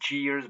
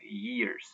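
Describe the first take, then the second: First: The word starts with a J sound. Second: The word starts with a Y sound. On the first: The speaker calls it wrong. "it's not J" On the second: The speaker calls it right. "but Y"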